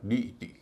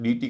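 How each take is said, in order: First: The vowels are kept as separate syllables. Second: The vowels merge into one long ee. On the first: The speaker calls it right. "इसका उच्चारण होगा डी ई टी" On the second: The speaker calls it wrong. "ई आई का उच्चारण बड़ी ई हो रहा है, डी टी कर रहे हैं, ऐसा नहीं"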